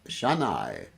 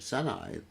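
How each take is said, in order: First: The word begins with an sh sound. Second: The word begins with an s sound. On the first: "probably pronounce it Shanai" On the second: "or Sanai"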